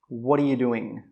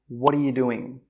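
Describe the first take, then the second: First: The words run together into connected sounds. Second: The same.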